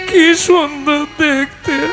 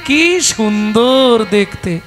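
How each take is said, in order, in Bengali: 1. কান্নাভেজা স্বরে বলা হচ্ছে। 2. হাসিখুশি স্বরে বলা হচ্ছে। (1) "কেঁদে বলবেন?" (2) "হেসে হেসে বলবো"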